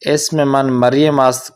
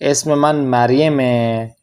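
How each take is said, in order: First: The final verb ast is said in full. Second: The final verb is shortened to a short ending. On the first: This is the complete formal sentence. "Complete जुमला तो यही है" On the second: This is the casual conversational form. "जब गुफ्तगू करते हैं तो जुमला को हम छोटा मुख्तसर कर देते हैं"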